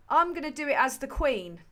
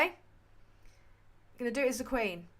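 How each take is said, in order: First: Said in the usual way. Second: Slow, plummy royal voice; the Queen. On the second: Acted. Streamer announcing to Kathy in a slow Queen impression. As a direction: deliver it like the Queen, slowly.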